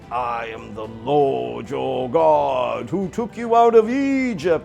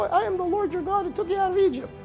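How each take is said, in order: First: It is said in a loud, booming voice. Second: It is said in a Mickey Mouse voice.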